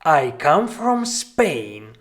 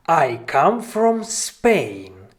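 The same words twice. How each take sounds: The two takes are said the same way.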